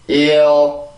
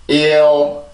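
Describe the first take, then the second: Both takes have the same delivery.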